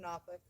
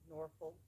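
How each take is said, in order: First: The ending is reduced, as in local speech. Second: The ending is said fully, following the letters.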